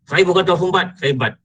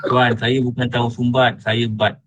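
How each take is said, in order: First: Higher-pitched mock protest; protesting retort. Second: Polite, level correction; composed Sayyidina Umar manner. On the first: Man objects to being called tahu sumbat, protesting. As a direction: push back at the nickname, voice raised in pitch. Acted retort to a teasing nickname. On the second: Acted. Man politely corrects a name-caller, composed. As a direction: answer the nickname calmly and respectfully. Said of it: "ini sudah watak Sayyidina Umar".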